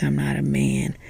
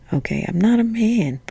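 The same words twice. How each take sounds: First: Said in the usual way. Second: "not" pushed up high and falling; stress on not. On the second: Real, not acted. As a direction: lean hard on "not" in "I'm not a man". Repeats phrase with emphasis.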